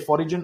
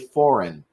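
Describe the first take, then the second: First: The G is pronounced. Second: The G is silent. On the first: The speaker calls it wrong. "Never say foreign" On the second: The speaker calls it right. "always say foreign. The G is silent"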